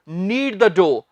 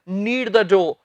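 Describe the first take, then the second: No difference in how they are said.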